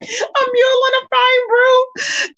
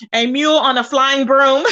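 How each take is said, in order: First: High, slow and cracking with laughter; laughing through it. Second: Said in the usual way. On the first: Real, not acted. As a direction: squeeze the words out between laughs. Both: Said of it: "Child, I am dying".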